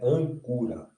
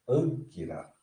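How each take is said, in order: First: The vowel after the k sounds like 'oo'. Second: The vowel after the k sounds like 'ee'. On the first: The speaker calls it wrong. "errado, não é ancura" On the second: The speaker calls it right. "é anquira"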